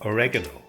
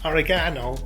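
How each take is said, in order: First: It is said the American way. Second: It is said the Irish way.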